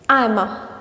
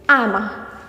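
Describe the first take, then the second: Both takes have the same delivery.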